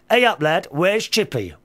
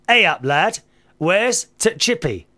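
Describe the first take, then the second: First: No 't' sound comes before 'Chippy'. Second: A short 't' sound comes before 'Chippy'. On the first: The speaker calls it right. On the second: The speaker calls it wrong.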